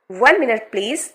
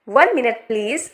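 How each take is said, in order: First: Said in the usual way. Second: One minute please, said slowly word by word; slow model reading. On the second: Shown as a demonstration. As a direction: draw each word out for learners. (धीरे-धीरे, हर शब्द अलग बोलें) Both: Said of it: "इन सभी sentences को आपको बोलने की practice करनी है".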